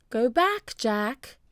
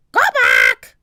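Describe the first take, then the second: First: Higher, human-sounding voice without screech; person-like parrot. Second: Loud, screeching parrot voice; parrot squawk. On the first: Polly urging Jack home, sounding like a person. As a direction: speak the warning like a person. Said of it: "She sounded like a person". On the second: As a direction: screech the words like a bird. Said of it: "squawked Polly". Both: A narrator's reading.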